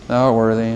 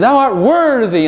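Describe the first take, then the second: First: It is said flatly, with little energy. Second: It is said with lively, forceful energy. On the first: The speaker calls it wrong. "don't just say" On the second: The speaker calls it right. "say it with some vigor"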